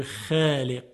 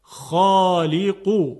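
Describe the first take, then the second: First: خالق with a thin, light خ and ق; خالق said flat without emphasis; the wrong, light way; wrong light pronunciation. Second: خالقو very slow and loud with a thick خ and a heavy ق; the right, heavy way; heavy emphatic. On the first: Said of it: "ما نمیتونیم بگیم خالق". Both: Shown as a demonstration.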